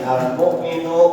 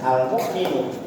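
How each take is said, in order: First: The final vowel is short. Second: The final vowel is drawn out long. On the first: The speaker calls it right. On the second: The speaker calls it wrong.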